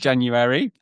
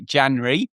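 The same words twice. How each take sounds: First: It is said in a standard, non-Norfolk way. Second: It is said with a Norfolk accent feature. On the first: "instead of January" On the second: "I have a few little Norfolk kind of accent things. So I say January"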